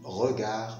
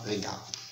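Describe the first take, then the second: First: The first vowel is the soft e of melon. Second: The first vowel is the open è of message. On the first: The speaker calls it right. "on dit regard" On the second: The speaker calls it wrong. "et non pas regard"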